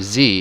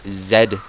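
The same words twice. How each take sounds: First: The letter is said the American way, zee. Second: The letter is said the British way, zed.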